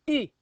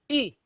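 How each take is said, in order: No difference in how they are said.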